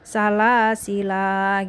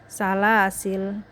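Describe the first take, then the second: First: The word ends with a long 'a' vowel. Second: The word ends on the 'l' consonant. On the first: "menetapkan alif kalau saat waqaf pada salasil" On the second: "dibuang alifnya menjadi salasil"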